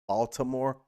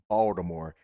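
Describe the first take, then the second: First: The T in the middle is pronounced. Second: The T in the middle is dropped.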